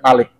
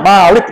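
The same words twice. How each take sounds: First: The first vowel is short. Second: The first vowel is long. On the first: It means king or ruler. "Ini satu harokat" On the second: It means the one who owns. "dibacanya Malik dengan dua harokat"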